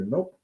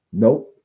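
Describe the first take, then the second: First: A higher, light "Nope" as a gentle marker; calm correction nope. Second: "Nope" barked louder and sharp; a loud, firm "Nope" to stop the whining. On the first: Trainer shows owners the cue with the vibration remote, light and higher. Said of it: "just say". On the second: Trainer shows the firm correction word for the dog, loud and sharp. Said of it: "as soon as you see that change". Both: Shown as a demonstration.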